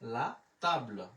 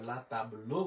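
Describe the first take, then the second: First: The word ends without a final vowel. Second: A vowel sound is added at the end. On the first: The speaker calls it right. "লা তাবল একসাথে উচ্চারণ করি" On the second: The speaker calls it wrong. "আমরা লা তাবলো বলবো না"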